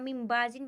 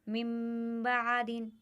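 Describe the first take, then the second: First: The consonant sounds like a heavy z. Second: The consonant sounds like a heavy d. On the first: "यहाँ मिम बाजिन भी पढ़ते हैं, ज़्वाद भी पढ़ते हैं" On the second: "दुआद भी पढ़ते हैं"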